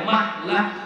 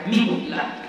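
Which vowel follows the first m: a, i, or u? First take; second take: a; i. First: The first vowel is a. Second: The first vowel is i. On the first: "boleh dibaca mahlah" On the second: "boleh dibaca mihlah"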